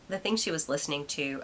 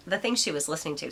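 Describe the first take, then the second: First: Said in the usual way. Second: Talking with a hair in mouth. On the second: Real, not acted. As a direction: say it around a hair stuck in mouth. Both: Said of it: "sorry, I have a hair in my mouth".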